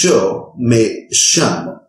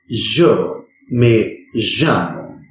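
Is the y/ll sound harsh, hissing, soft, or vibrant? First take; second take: hissing; vibrant. First: The y and ll are hissing, sh-like sounds. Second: The y and ll are buzzing, vibrant sounds. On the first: "pronounce it as a sibling sound" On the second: "pronounce it as a vibrant sound"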